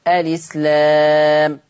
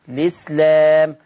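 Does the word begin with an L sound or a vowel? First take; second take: vowel; L sound. First: The word begins with a vowel before the L. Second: The word begins directly with an L sound. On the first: "ابتدي بهمزة الوصل مباشرة اثبات همزة الوصل" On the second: "اشيل همزة الوصل وابدأ باللام مباشرة"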